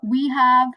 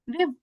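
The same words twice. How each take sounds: First: Said in the usual way. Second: "we've" as one syllable; contracted form. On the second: Shown as a demonstration. Teacher showing learners the contraction, contracted "we've". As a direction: join "we have" into "we've". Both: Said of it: "can be like this".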